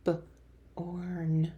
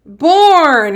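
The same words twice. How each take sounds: First: B-orn whispered, onset split from the rest; whispered segmented B-orn; whispered sounding out. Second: Born said whole, louder and higher; blended Born called out. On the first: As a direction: breathe B then orn apart. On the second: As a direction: land the blended word with a bright call. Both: Shown as a demonstration. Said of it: "Way to blend those sounds".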